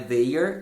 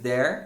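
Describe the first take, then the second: First: It sounds like 'they' followed by 'er'. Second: It sounds the same as the word 'there'. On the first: The speaker calls it wrong. "não é they're" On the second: The speaker calls it right. "a pronúncia aqui é there"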